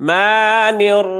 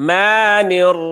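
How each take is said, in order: Both takes have the same delivery.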